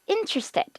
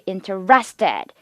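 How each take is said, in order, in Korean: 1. 강세는 첫 음절에 있습니다. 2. 강세는 나중 음절에 있습니다. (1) "앞에 강세 있습니다" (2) "이렇게 하면은 오류입니다"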